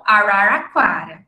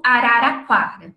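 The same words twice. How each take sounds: First: Araraquara with curled-back retroflex r's. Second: Araraquara with every r a light tap; tapped r. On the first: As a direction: curl the tongue back on each r of araraquara. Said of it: "as pessoas falam porta e falam". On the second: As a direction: say araraquara with flicked tapped r's. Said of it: "por exemplo". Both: Shown as a demonstration.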